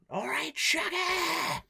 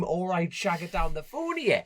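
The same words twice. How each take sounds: First: High, drawn-out mock scream; retold phone scream. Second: Half-strength retold scream, slightly high; mock scream. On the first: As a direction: screech it as a greeting down the phone, stretching it. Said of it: "I screamed down the phone". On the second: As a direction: quote the phone scream without fully yelling, drawn out. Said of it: "How many Geordie knackers scream".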